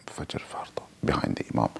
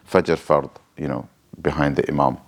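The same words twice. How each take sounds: First: Barely audible unvoiced whisper; whisper to self. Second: Said in the usual way. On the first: Shown as a demonstration. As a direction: whisper it privately, just for your own ears. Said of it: "what I'm whispering to myself". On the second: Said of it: "what I'm whispering to myself is".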